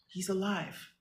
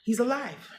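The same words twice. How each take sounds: First: Much softer, almost to herself; quiet self-reassurance. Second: Said in the usual way. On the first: Real, not acted. Mother murmuring to herself that her son lives, quietly.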